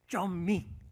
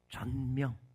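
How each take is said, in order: First: It is said with Chinese sounds, 'zunming'. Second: It is said with Korean sounds, 'jonmyeong'.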